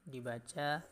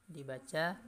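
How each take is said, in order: The two takes are said the same way.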